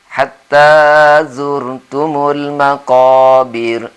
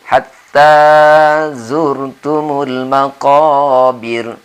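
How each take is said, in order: Both takes have the same delivery.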